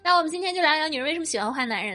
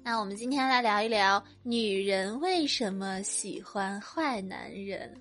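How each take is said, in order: First: It is said in a plain, natural tone. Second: It is said in an affected, coy tone.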